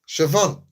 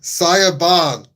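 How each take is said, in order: First: The name is said like 'Shivawn'. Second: The name is said like 'Saya Barn'. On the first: The speaker calls it right. "The name is Siobhan" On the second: The speaker calls it wrong. "If you read her name, you'd think it's Saya Barn"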